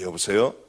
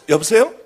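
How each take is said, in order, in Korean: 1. 목소리가 낮고 묵직해요. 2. 목소리가 밝고 활기차요. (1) "좀 중후한 목소리고" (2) "이번에는 좀 목소리를 발랄하게 해야겠다"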